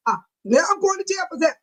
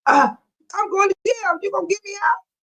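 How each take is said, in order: First: Fast, higher mock panic at going to jail; mock jailed protester. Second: Higher, laughing plea to be bailed out; mock pleading arrestee. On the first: Imagining her arrest, she acts out a fast mock panic. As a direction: play yourself suddenly hauled off to jail. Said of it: "What if I go". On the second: Imagining jail, she begs the chat to bail her out, half laughing. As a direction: beg half-laughing for someone to get you out. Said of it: "What I wanna say".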